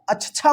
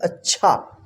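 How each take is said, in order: First: The middle ch sound is short and single. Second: The middle ch sound is held and doubled. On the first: The speaker calls it wrong. "इसको अच्छा मत पढ़िएगा" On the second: The speaker calls it right. "इसको पढ़ेंगे अच्छा"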